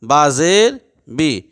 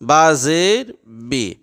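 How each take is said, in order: Both takes have the same delivery.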